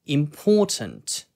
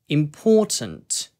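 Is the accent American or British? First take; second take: British; British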